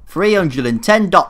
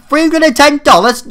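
First: Said in the usual way. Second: Much higher, louder shocked question; a shocked shout at the bill; outraged disbelief. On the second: Real, not acted. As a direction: yelp at the price. Outraged at the price.

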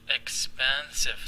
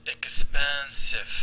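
First: Said in the usual way. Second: Expensive stretched very slowly and louder, each syllable apart; syllable-by-syllable demo. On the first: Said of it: "ثلاثة syllables". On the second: Shown as a demonstration. Teacher counts syllables aloud for students, very slow and loud. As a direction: spell out ex-pen-sive by sound, slowly. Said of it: "expensive ثلاثة syllables".

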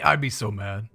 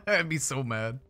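First: Shouting. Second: Laughing. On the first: Acted. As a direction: yell it out, mad. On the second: Real, not acted. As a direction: say it through a laugh.

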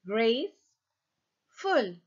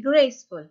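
First: "graceful" very slowly as grace, then ful; split into syllables. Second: Said in the usual way. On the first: Shown as a demonstration. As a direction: break "graceful" in two with a clear gap. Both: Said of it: "مقطعين".

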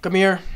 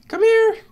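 First: Said in the usual way. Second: High-pitched call. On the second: Real, not acted. Calling a mob to the boat, squeaky high call.

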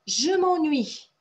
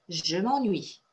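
First: Slow, higher, louder model of "Je m'ennuie"; slow model pronunciation. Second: Said in the usual way. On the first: Shown as a demonstration. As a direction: stretch out "Je m'ennuie" with the fall on "m'ennuie". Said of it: "teacher models the phrase". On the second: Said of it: "teacher repeats the phrase".

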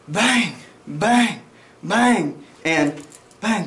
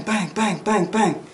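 First: Slow, spaced-out bangs. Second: Quick even string of 'bang' with no gaps, higher pitched; rapid-fire bangs. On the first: Instructor showing students slow recoil recovery, slow spaced bangs. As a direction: imitate slow gunfire, one drawn-out bang at a time. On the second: Instructor showing students the faster shooting tempo, rapid-fire bangs. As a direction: imitate fast follow-up shots, bang after bang. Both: Shown as a demonstration. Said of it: "Hear the tempo?".

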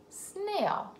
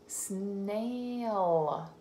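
First: "Snail" said quickly and much higher; bright quick read. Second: "Snail" drawn out slowly; slow sounding out. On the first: Teacher reading "Snail" quickly to the child. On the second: Teacher sounding out "Snail" for the child. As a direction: stretch "Snail" out. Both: Shown as a demonstration. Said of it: "S N blend at the beginning".

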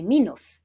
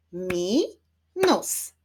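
First: Said in the usual way. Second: "Minus" split into mi, nus; syllable by syllable. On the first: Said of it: "Wyklaszczmy sylaby w wyrazie". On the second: Shown as a demonstration. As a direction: clap out "Minus" as two separate beats. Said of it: "Wyklaszczmy sylaby". („Minus” sylabami: mi, nus)

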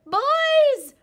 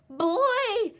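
First: Even higher and louder, full-throated; bigger howl. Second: High, loud howling call. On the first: Little Wolf calling into the cave, biggest howl. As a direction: howl with everything you have. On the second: Little Wolf calling into the cave, loud howl. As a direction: howl it for everyone to hear. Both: A narrator's reading. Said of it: "he howled".

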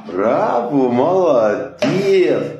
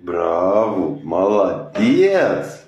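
First: Higher, slow, stretched praise; bright praise. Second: Lower, slow praise. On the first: Praising the pet after a trick, higher and drawn out. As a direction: cheer the pet on. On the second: Praising the pet after a trick, low and slow. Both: Real, not acted. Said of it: "coaching pet through trick".

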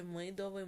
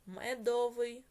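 First: Мидовий with и instead of е; wrong vowel. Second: Медовий with a clear е in the first syllable; the right form Медовий, clearly pronounced e; correct spelling vowel. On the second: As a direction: say Медовий with a distinct е sound. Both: Shown as a demonstration. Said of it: "чи мидовий?".

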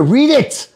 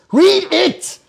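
First: Said in the usual way. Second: Escalating demand. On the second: Real, not acted. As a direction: Read it pitched much higher, urgent.

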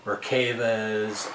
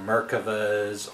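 First: Merkavas said as mer-KAY-vuhz; second variant pronunciation. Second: Merkavas said as MER-kuh-vuhz; first variant pronunciation. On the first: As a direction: stress a long "kay" in the middle of Merkavas. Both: Shown as a demonstration. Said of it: "I've heard 'em called".

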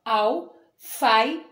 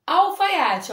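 First: "Alfaiate" as al, fai, a, te; short break after each syllable of "Alfaiate". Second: Said in the usual way. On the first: Shown as a demonstration. ("Alfaiate" dito sílaba por sílaba) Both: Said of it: "separa as sílabas".

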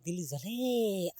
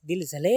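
First: દિલ જલે sung very slowly and softly; sung, stretch દિલ જલે out slow and soft; drawn-out singing. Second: Said in the usual way. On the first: Pretend. Vlogger singing દિલ જલે to viewers, slow and soft.

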